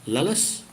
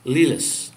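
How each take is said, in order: First: "Lelis," with short eh, LEH-lis, rising; corrected "Lelis," short eh; right vowel. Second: "Lilis," with a long ee, LEE-lis; first try at "Lilis," with long ee; wrong vowel. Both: Shown as a demonstration.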